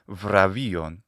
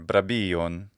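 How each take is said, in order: First: The consonants are buzzing v-like fricatives. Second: The consonants are b-like stops. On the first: This is the later pronunciation of the word. "which is with a v, the bilabial fricative" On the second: This is the older pronunciation of the word. "an older pronunciation, still in Greek, would be something like brabion"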